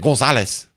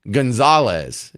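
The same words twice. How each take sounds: First: The name is said with a Spanish accent. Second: The name is said with an English accent. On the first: "in the middle of a Spanish sentence and you say Gonzalez" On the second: "if you're speaking English, you know, the name is Gonzalez"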